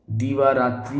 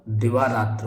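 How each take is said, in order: First: दीवारात्रि with long "dee" and final "i"; wrong form. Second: दिवारात्र with short "di" and no final "i"; correct form. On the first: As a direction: say दीवारात्रि as "dee-vaa-raatri". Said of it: "कुछ नहीं होता". (दीवारात्रि में "दी" लंबा बोलें) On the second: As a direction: say दिवारात्र as "di-vaa-raatra". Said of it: "दिवारात्र होता है". (दिवारात्र में "दि" छोटा बोलें) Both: Shown as a demonstration.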